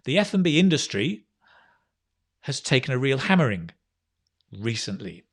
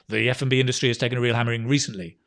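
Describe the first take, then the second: First: The sentence is broken into phrases with pauses. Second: The sentence runs on without any pause. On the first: "You can phrase it" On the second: "That's difficult"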